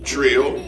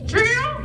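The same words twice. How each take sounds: First: Said in the usual way. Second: Very high squeaky parrot voice; parrot echo. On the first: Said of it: "break it up in syllables". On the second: Acted. Parrot puppet repeating syllables after its teacher, high squeak.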